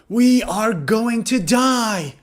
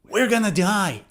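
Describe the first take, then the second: First: Going to is said in full. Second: Going to is reduced to gonna. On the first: "instead of going to" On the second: "native speakers say gonna"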